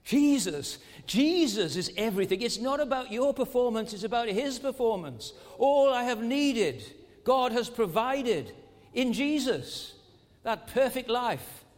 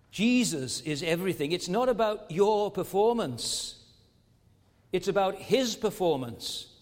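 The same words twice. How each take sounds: First: Higher, louder refrain, slowing; the refrain thundered from the pulpit; preaching climax. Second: Said in the usual way. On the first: Acted. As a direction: build the refrain to its peak. Refrain repeated at full force.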